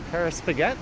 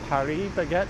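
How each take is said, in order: First: The name is said with English pronunciation. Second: The name is said with Korean pronunciation.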